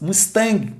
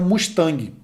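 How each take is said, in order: First: It is said with English sounds and stress. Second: It is said with Portuguese sounds and stress. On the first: A native English listener would understand it. The speaker calls it right. "Talvez se você falasse Mustang, o cara pode ser que ele vai te entender" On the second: A native English listener would not understand it. The speaker calls it wrong. "não se pronuncia Mustang dessa maneira"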